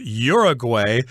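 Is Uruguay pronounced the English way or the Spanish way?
English. The word is said with an English pronunciation. "a lot of Westerners pronounce this word as Uruguay"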